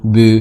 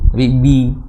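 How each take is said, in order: First: The b is said with almost no vowel. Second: The b is followed by a clear i vowel. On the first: The speaker calls it wrong. "Jangan b" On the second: The speaker calls it right. "sedikit menurunkan lahang, kemudian sedikit diberingiskan i"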